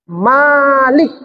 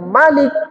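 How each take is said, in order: First: The first vowel is said long. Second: The first vowel is said short. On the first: The word means owner. "Kalau dibaca panjang, Malik artinya pemilik" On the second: The word means king or ruler. "Kalau dibaca dia Malik pendek, artinya itu raja"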